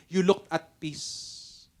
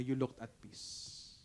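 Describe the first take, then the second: First: Very slow, drawn-out; slow savoring. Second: Very slow and much softer; soft slow echo. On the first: Pastor savoring the attendee's words, very slowly. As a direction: linger on every word. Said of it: "dun sa pangalawang sinabi niya". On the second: Pastor echoing the compliment, hushed and slow. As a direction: let it fade to a hush. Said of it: "sabi niya". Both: Retold or imitated.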